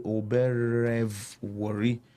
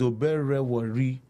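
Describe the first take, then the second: First: A V sound is pronounced mid-word. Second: No V sound is pronounced mid-word. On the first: The speaker calls it wrong. "Sometimes I'm tempted to say Oberevori" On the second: The speaker calls it right. "So it's Oberewori. ... the V is silent"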